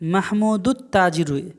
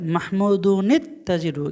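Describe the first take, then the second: First: The words join directly with no 'ni' sound. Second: A linking 'ni' sound joins the two words. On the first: The speaker calls it wrong. "এখানে আমরা কিন্তু এটা এভাবে পড়ি না" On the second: The speaker calls it right. "তো এটা এভাবেই পড়তে হয়।"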